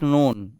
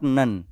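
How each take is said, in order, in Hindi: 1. स्वर एक लंबी 'oh' ध्वनि है। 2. स्वर एक छोटी 'uh' ध्वनि है। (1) "this is नोन" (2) "not नन"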